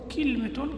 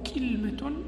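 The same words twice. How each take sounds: First: It has i after k and no vowel after l. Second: It has a after k and no vowel after l. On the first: "كسر الكاف وإسكان اللام فتح الميم" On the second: "فتح الكاف وإسكان اللام وفتح الميم"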